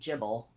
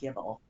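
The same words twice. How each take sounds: First: The word starts with a soft J sound. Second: The word starts with a hard G sound. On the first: This is how the listener would pronounce it. "you would probably say Gibble, how you pronounce it" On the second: This is how the speaker pronounces it. "I would say it with a G- like Gibble"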